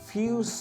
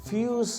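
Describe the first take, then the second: The two takes are said the same way.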